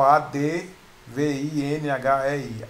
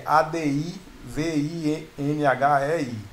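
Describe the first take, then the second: First: "A D V I N H E I" spelled slowly, letter by letter, without the I; each letter of "A D V I N H E I" said slowly; misspelling spelled out. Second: "A D I V I N H E I" spelled letter by letter; each letter of "A D I V I N H E I" said separately. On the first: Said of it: "Põe só". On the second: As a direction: spell "A D I V I N H E I" slowly, one letter at a time. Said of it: "A palavra adivinhei é". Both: Shown as a demonstration.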